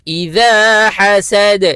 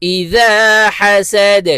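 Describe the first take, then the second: The two takes are said the same way.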